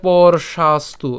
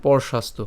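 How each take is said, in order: First: "পরশাস্তু" drawn out slowly, piece by piece; broken into syllables. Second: "পরশাস্তু" as one unbroken word; said together. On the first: Teacher splitting a hard word for learners, "পরশাস্তু" slow and broken up. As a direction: stretch and separate each part of "পরশাস্তু". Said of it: "আমি এখানে যদিও বেশি ভেঙে দিয়েছি". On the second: Teacher showing learners the joined form, "পরশাস্তু" in one go. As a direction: run "পরশাস্তু" together without gaps. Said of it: "একসাথে এভাবে উচ্চারণ করবেন". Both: Shown as a demonstration.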